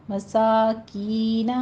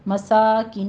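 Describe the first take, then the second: First: مساکین slowly with aa and ee equally long; drawn-out "masaakeena" for مساکین; balanced long vowels. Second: مساکین with the ee cut short; wrong length demo. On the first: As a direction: model مساکین, stretching "kee". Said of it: "جتنا آ اتنا ای کی sound". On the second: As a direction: show the mistake: long saa, short "ki" in مساکین. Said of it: "مساکین نہیں کہنا". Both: Shown as a demonstration.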